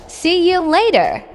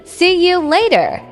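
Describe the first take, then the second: No difference in how they are said.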